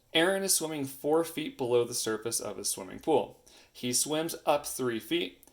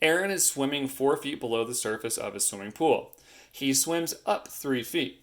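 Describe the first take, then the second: No difference in how they are said.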